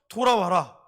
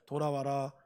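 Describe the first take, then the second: First: It is read with pleading, heartfelt emotion. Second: It is read flatly, without feeling. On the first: The reader feels the longing behind the words. The speaker calls it right. "아들, 딸을 생각하면서" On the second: The words are just read off the page. The speaker calls it wrong. "그냥 가만히 안 읽거든요. ... 이렇게 안 읽을 거 아니에요"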